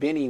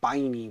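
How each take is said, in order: First: The first vowel is a short 'i' sound. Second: The first vowel is a long 'eye' sound. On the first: The speaker calls it right. "with the little I" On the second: The speaker calls it wrong. "not Biney with the big I"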